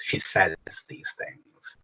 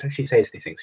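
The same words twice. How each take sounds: First: Slow hushed read. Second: Said in the usual way. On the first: Shown as a demonstration. Teacher reading the poem line slowly and quietly for students. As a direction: say it slowly and softly, almost breathless. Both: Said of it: "takes the first Decet and switches it around".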